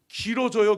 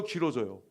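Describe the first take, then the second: First: 길어져요 said louder, falling, a touch drawn out; drawn-out complaint. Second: Said in the usual way. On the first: Shown as a demonstration. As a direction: lean on 길어져요 like it never ends.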